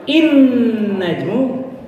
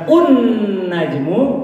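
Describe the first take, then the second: First: The word begins with an i vowel. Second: The word begins with an u vowel. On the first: "bukan in najmu" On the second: "bukan un najmu"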